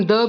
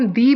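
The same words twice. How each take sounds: First: Weak-vowel "the", rhyming with "duh"; "the" as "thuh". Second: Long-vowel "the", rhyming with "see"; "the" as "thee". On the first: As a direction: say "the" with a short schwa, "thuh". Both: Shown as a demonstration. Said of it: "हम the भी pronounce करते हैं".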